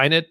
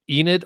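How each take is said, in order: First: Enid said as EYE-nid; alternative pronunciation. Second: Enid said as EE-nid; long-E pronunciation. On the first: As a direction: start "Enid" with an eye sound. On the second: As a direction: start "Enid" with a long ee sound. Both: Shown as a demonstration. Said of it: "Pronounce it Enid or Enid".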